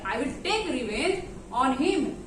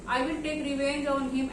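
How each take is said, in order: First: It is said in a threatening, menacing tone. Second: It is said flatly, without any threat. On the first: The speaker calls it right. "बोलने का भी तरीका ऐसे होना चाहिए" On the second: The speaker calls it wrong. "ऐसे नहीं बोलिएगा"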